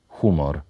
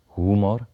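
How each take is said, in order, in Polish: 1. Głoska h jest bezdźwięczna. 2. Głoska h jest dźwięczna. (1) "wymawiane z bezdźwięcznym ch" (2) "W języku ukraińskim wyrazy te są wymawiane z dźwięcznym ch"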